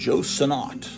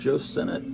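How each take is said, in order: First: The surname ends with a 'nott' sound. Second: The surname ends with a 'nett' sound. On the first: This is how other people say the name. "I hear people on YouTube saying Joe Sennott" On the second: This is how the speaker has always said the name. "I've always called him Joe Sennett"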